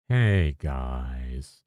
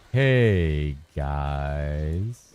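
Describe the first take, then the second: First: Fubgun impression. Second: Low, falling youtuber greeting; Fubgun impression retry. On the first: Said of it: "It's too, too up". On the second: Streamer retries Fubgun's intro, low and drawn out. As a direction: try the greeting again, deeper and drawn out. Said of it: "The hey is wrong?".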